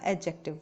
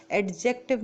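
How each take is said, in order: First: "एडजेक्टिव" with a silent D, pitched low; correct pronunciation. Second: "एडजेक्टिव" with the D sounded; wrong pronunciation. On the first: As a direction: say "एडजेक्टिव" as a-jective, low and soft. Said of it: "एडजेक्टिव बोलेंगे". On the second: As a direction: say "एडजेक्टिव" as ad-jective. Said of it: "नहीं बोलेगा". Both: Shown as a demonstration.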